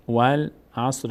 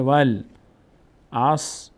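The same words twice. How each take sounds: First: والعصر in two linked parts, still slow; joined reading. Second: والعصر broken into slow, separate syllables. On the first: Teacher putting the sounded-out example together, joined reading. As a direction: read والعصر joined up, slowly and evenly. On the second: Teacher showing how the vav joins the lam, syllable by syllable. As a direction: sound out والعصر piece by piece, very slowly. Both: Shown as a demonstration.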